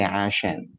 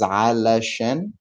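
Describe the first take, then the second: First: The word is said in a shortened form. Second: The word is said in its full form. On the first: "when we're speaking quickly, we can say" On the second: "The full word is"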